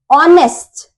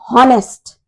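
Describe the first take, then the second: First: The word begins with a vowel, no h. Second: The word begins with an audible h sound. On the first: The speaker calls it right. "We pronounce it as honest" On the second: The speaker calls it wrong. "they pronounce this word as honest"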